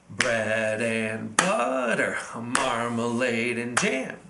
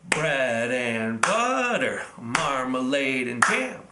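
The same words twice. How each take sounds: Both takes have the same delivery.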